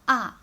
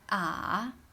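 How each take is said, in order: First: The syllable is said with the fourth tone. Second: The syllable is said with the third tone. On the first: "With the fourth tone, it will be ah" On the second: "the third tone is ah"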